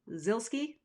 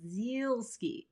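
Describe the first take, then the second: First: The name is said short and simple. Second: The name is said with extra drawn-out sounds. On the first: The speaker calls it right. "Now it's just Zilski. Sounds like Pilski" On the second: The speaker calls it wrong. "A lot of people overpronounce the Zilski like"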